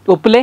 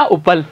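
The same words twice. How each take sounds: First: उपले with a clear final ए; correct word. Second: उपल said short, ending on a bare ल with no ए; wrong spelling read out. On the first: Teacher gives the class the correct उपले. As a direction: give उपले its full ए ending. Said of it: "क्या लिखना है?". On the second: Teacher reads the mistaken word उपल to his class. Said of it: "मैंने क्या बोला, क्या लिखना है". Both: Shown as a demonstration.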